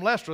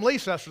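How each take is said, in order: First: Leicester as two syllables, "LESS-ter"; local pronunciation. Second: Leicester as three syllables, "lee-CESS-ter"; spelling pronunciation. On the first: Preacher showing how born locals say Leicester, as "Lester". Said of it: "but they're from Leicester". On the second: Preacher mimicking newcomers who misread Leicester, three syllables. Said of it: "it's spelled Leicester". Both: Shown as a demonstration.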